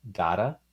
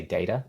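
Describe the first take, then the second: First: "data" with an "ah" in the first syllable; New Zealand pronunciation. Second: "data" with an "ay" in the first syllable; American pronunciation. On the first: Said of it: "we say words like". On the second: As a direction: say "data" as DAY-ta, American style. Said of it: "you guys would say data". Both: Shown as a demonstration.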